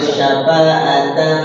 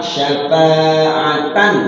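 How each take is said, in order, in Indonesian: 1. Bunyi n di akhir kabur dan tidak jelas. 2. Bunyi n di akhir dilafalkan dengan jelas. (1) "enggak boleh disamarkan tanwin" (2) "Tanwinnya terbaca jelas"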